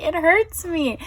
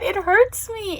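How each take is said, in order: First: Pained, repeated. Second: Pained. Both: Real, not acted. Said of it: "I can't form words".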